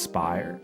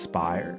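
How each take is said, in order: First: The vowel sounds like the one in fire. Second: The same.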